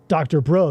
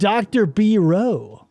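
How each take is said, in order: First: It is said fast with the parts run together. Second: It is said slowly with the parts kept apart.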